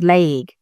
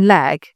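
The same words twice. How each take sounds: First: The word is said with a southern accent. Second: The word is said without a southern accent. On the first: "she's already saying things that are southern" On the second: "instead of saying leg"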